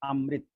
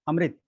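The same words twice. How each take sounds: First: Not every syllable is said short and light. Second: Every syllable is said short and light. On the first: The speaker calls it wrong. "अमृत वो बिल्कुल अशुद्ध है" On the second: The speaker calls it right. "अ लघु, मृ लघु, ता लघु, अमृत, ये उसका उच्चारण है"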